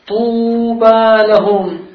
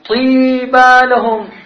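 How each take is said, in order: First: The first vowel is a rounded 'oo' sound. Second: The first vowel is a front 'ee' sound. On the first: The standard form of the word. "قال القارئ" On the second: The speaker's own dialect form of the word. "قال الأعرابي"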